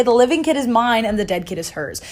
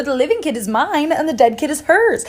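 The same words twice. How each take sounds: First: Said in the usual way. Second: "mine" and "hers" punched, pitched higher; emphatic contradiction. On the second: Retold or imitated. Debbie contradicts Sandra before the king, emphatic. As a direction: throw it back, hitting "mine" and "hers". Second mother contradicts her.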